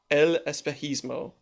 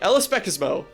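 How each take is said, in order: First: The middle consonant is a throaty h sound. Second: The middle consonant is a plain s sound. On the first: The speaker calls it right. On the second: The speaker calls it wrong.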